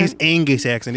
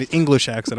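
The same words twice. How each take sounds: First: "English" slurred into "Angus"; slurred pronunciation. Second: Said in the usual way. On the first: Real, not acted. Speaker tripping over the word, "English" slurred to "Angus". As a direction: slur "English" so it sounds like "Angus". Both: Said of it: "I got a slurry speech".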